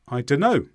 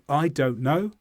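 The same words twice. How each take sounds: First: The words are run together with sounds dropped. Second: Every word is pronounced fully and separately. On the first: "we are speeding up our speech" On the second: "Instead of"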